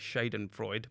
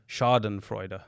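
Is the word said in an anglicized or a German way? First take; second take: anglicized; German. First: The word is said with an anglicized pronunciation. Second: The word is said with a German pronunciation. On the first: The speaker calls it wrong. "I was going to say" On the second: The speaker calls it right. "it's actually pronounced that way"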